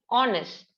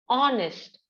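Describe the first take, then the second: No difference in how they are said.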